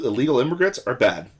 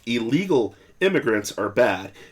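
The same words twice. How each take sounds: First: It is said at normal speed. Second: It is said slowly.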